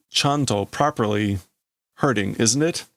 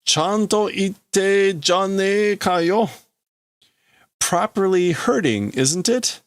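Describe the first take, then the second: First: Said in the usual way. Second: Slow, higher-pitched mock amazement; drawn-out acted taunt; taunting character. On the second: Character remarking that it properly hurts, taunting.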